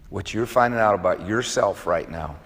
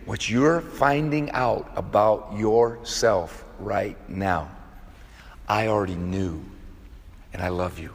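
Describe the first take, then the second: First: Softly and evenly, "finding" gently leaned on; quiet reassurance at an ordinary pace; soft tender line. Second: Very slow, every word drawn out, "you're" leaned on; slow, deliberate repeat. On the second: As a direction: spell it out slowly for emphasis. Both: Shown as a demonstration. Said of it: "I'm gonna say it again".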